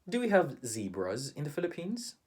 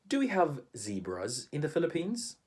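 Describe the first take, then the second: Both takes have the same delivery.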